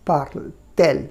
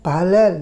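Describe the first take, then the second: First: Parle-t-elle with a clear T before "elle"; inserted T sound. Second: পালাল with parle and elle merged, no T; run-together pronunciation. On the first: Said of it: "ওটাকে আটকে দিলাম টিটাকে". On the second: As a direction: blend the words into one, "পালাল". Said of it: "এখানে একটু উচ্চারণের অসুবিধা হচ্ছে". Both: Shown as a demonstration.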